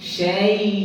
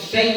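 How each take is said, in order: First: The leen sound is pronounced soft and light. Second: The leen sound is pronounced hard and firm. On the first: The speaker calls it right. "নরম করিয়া পড়িতে হইব না?" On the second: The speaker calls it wrong. "শক্ত হইল না?"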